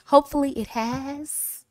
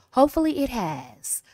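First: Soft, with HAS lifted upward at the end; higher, hopeful-sounding upturn on HAS; rising sentence end. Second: Soft, with HAS dropping down at the end; quiet close, HAS falling away; falling sentence end. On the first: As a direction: let the pitch climb on "has". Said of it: "use your voice to go up". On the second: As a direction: let the pitch sink on "has". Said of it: "All my sentences are going down". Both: Shown as a demonstration.

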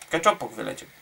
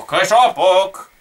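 First: Said in the usual way. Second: KECZOPOK stretched out long and loud; drawn-out exclamation. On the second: Real, not acted. Gamer announcing Keczopok flying out, drawn-out exclamation. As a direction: draw out Keczopok, loud and slow. Drawn-out take, then said usually.

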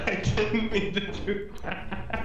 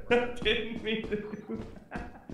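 First: Slow, giggling apology; laughing. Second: Higher, softer laughing apology. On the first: Laughing after accident. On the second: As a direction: giggle it out slowly. Laughing repeat. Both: Real, not acted.

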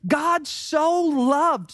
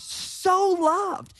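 First: "God so loved" drawn out, stress on "God"; slow emphasis. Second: "so" pitched up high and lingered on in "so loved"; stress on so. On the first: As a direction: lean into "God", slowly. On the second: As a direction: lift "so" and hold it. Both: Shown as a demonstration. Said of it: "He emphasized it".

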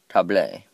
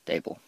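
First: "Table" said French-style as tah-blay; mock-French pronunciation. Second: Said in the usual way. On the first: Shown as a demonstration. Gamer guessing at the French word, "Table" as tah-blay. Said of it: "It's French for". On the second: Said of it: "It's French for table".

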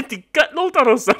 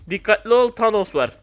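First: Warning repeated through laughter; laughing warning. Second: Said in the usual way. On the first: Real, not acted. Warning friend Aga about Thanos, laughing. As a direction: giggle as you warn him. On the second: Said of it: "Aga dikkatli ol".

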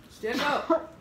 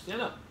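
First: Much higher and louder repeat of the order; urgent shout. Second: Firm, higher order to stand; urgent command. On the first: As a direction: shout it now, she must get up. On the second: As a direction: tell her to get up, urgent. Friend choking, urgent order. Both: Real, not acted.

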